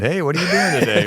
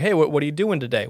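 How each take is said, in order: First: High, quick teasing mimicry; mocking imitation. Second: Lightly voiced sandwich guy; a hint of a chatty shop worker; slight character voice. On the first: Co-host mimicking his friend's sandwich guy, in a high mocking voice. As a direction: exaggerate the sandwich guy's voice to tease. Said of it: "You make fun of my voice". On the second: Sandwich guy asking a customer, in a lightly put-on voice. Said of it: "gave him kind of a voice there".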